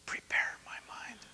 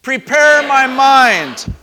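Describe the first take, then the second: First: Very soft whisper, all breath. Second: Full, high shout, stretched out slow. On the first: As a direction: lead them in a hushed whisper. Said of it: "We're gonna whisper". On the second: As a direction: shout it out to lead the room. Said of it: "we're gonna shout". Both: Shown as a demonstration.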